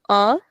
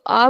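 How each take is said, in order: First: A nasalised through the nose; nasal a, as under a tilde; nasal vowel. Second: Said in the usual way. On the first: Shown as a demonstration. Teacher recaps the accent, nasal a. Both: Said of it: "this accent gives a nasal sound".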